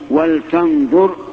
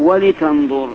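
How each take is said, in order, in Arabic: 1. صوت l لا تليه أي حركة. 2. يلي صوت l حركة i. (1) "بسكون لام" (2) "ولا بكسر"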